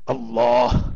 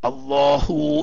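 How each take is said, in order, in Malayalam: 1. ഈ വാക്ക് മൃദുവായ ശ്വാസതുല്യമായ 'ഹ' യിലാണ് അവസാനിക്കുന്നത്. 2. ഈ വാക്ക് 'ഹ' ക്ക് ശേഷമുള്ള സ്വരാക്ഷരത്തിലാണ് അവസാനിക്കുന്നത്. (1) "വഖഫ് ചെയ്യുന്ന സമയത്ത് സാക്കിനായ ഹാ ആയിട്ടാണ് ഉച്ചരിക്കേണ്ടത്" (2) "തഫ്ഹീം ചെയ്തുകൊണ്ട് അള്ളാഹു എന്ന് പറയുന്നു"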